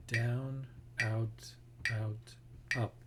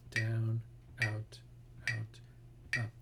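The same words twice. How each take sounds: The two takes are said the same way.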